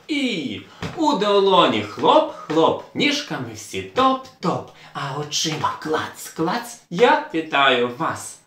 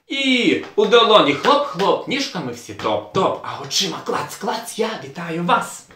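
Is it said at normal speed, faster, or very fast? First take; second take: normal; very fast. First: It is said at a normal speed. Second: It is said very fast.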